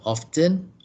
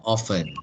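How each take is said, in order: First: "often" with an audible T, OFF-ten. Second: "often" without any T, OFF-en; often with silent T. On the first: Teacher looking up the learner's question, "often" with T sounded. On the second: Teacher looking up the learner's question, "often" with silent T. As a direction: drop the t from "often". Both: Shown as a demonstration. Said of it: "use the pronunciation often and often".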